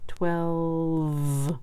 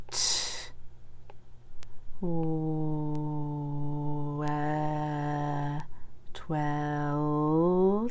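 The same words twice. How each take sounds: First: "Twelve" said long and drawn out; slow twelve. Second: "T-, w-, e-, twelve" drawn out sound by sound, then blended; teacher leading the class to say "twelve" together. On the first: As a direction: stretch "Twelve" so the sounds show. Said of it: "Do you hear that little in there". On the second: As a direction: stretch each sound of "twelve" before joining them. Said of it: "Say it with me". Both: Shown as a demonstration.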